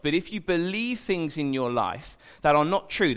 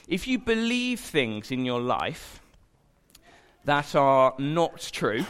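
First: Said in the usual way. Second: "If you believe things in your life that are not true" drawn out slowly, weighing each word; slow emphatic. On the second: Shown as a demonstration. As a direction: land the warning slowly with a pause before "that are not true".

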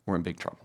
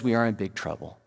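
First: Much softer, lower echo of the warning; preacher quietly repeating the warning. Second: Said in the usual way. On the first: Real, not acted. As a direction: let the repeat sink, hushed.

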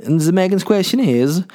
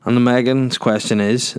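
First: Announcing. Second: Said in the usual way. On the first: Real, not acted. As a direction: present the question with a flourish.

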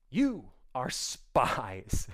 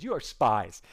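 First: Drawn-out, ominous "You are spies"; slow menacing accusation. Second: Said in the usual way. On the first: Shown as a demonstration. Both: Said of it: "Okay, he goes".

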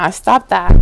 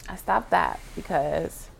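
First: Emphatic. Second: Said in the usual way. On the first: Real, not acted. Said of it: "repeats phrase". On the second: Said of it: "repeats phrase softer".

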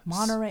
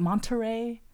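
First: Monterey with no T after the N; dropped T. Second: Monterey with a crisp T after the N; pronounced T. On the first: Showing how locals say it, "Monterey" with silent T. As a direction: say "Monterey" as "Monneray". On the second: Contrasting with the local way, "Monterey" with its T sounded. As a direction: say "Monterey" as "Mon-ter-ray". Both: Shown as a demonstration. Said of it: "we don't pronounce the T's".

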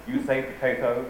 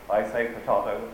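First: "potato" said with an "ay" vowel, po-TAY-to; American potato. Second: "potato" said with an "ah" vowel, po-TAH-to; mock British potato. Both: Shown as a demonstration. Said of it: "Nobody says potato".

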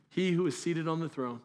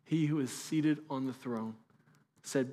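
First: Said in the usual way. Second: Slow, softer, weighty reading; a hushed slow proclamation. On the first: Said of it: "repeated phrase". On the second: Shown as a demonstration. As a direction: let each word land slowly. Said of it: "repeated, slowed".

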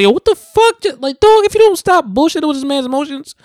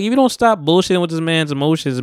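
First: Very high, loud, exasperated outburst; emotional outburst. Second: Said in the usual way. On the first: Real, not acted. Viewer yells at the dude on screen, emotional outburst. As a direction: yell it at the screen, pitch shooting way up. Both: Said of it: "I got emotional saying that".

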